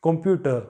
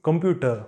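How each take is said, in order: Both takes have the same delivery.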